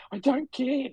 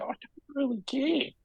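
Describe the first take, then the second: First: Higher whispered repeat. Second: Said in the usual way. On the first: Retold or imitated. Fan tells his friend he doesn't mind, whispering. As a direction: whisper it to yourself. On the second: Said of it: "I don't care (whispered repeat)".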